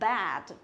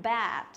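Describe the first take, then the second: No difference in how they are said.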